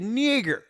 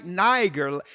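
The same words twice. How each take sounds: First: "nigger" said with the short i as in "nick", plainly; "nigger", the twanged short-i version; the Southern slur. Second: "Niger" said NY-ger, hard g, the long i as in "nine"; "Niger" pronounced carefully as NY-ger; correct pronunciation. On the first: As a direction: say "nigger" the way the old Southerners did. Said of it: "with their Southern slang couldn't say". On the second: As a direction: give "Niger" its proper NY-ger sound. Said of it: "instead of saying Niger". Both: Shown as a demonstration.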